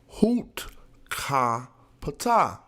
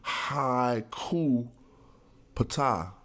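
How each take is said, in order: First: The first syllable sounds like 'hoot'. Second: The first syllable sounds like 'high'. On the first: The speaker calls it right. "it says hoot, ka, just like I was saying" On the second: The speaker calls it wrong. "They're saying haiku pata. But that's not right"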